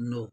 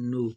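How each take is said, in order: First: نو with the o vowel, as in "go"; no sound. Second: نو with the oo vowel, as in "food"; nu sound. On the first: Teacher joining Korean n and o, نو as "no". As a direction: say نو as "no", with a long o. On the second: Teacher joining Korean n and u, نو as "nu". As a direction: say نو as "nu", with a long oo. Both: Shown as a demonstration. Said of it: "اور او".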